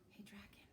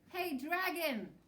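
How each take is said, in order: First: It is whispered very softly. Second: It is shouted very loudly.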